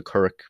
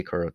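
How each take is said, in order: First: "currach" with a hard k sound at the end; alternative pronunciation. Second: "curra" with no final k, ending on a vowel; own dialect pronunciation. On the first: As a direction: close "currach" firmly on a k. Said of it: "I'd say curra". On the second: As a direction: leave "curra" open at the end. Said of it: "That's my dialect". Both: Shown as a demonstration.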